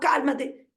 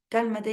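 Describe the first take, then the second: First: It is said in a sharp, scolding voice. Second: It is said in a soft, calm voice. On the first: The adult is telling the child off. The speaker calls it wrong. "si ustedes los retan" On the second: The adult is soothing the child. The speaker calls it right. "Así, en ese tono"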